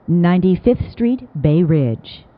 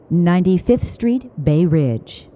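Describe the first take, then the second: No difference in how they are said.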